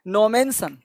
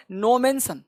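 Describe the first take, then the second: No difference in how they are said.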